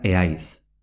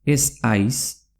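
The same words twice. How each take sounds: First: "eaiz" with no s after the e; Z dropped before H. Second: Said in the usual way. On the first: Shown as a demonstration. Teacher shows ez haiz merging, Z dropped. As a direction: say "eaiz" as e-ais, vowels touching. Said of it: "se pronuncia". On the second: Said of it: "se pronuncia eaiz".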